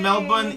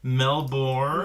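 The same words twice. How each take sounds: First: It is said in an Australian accent. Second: It is said in an American accent.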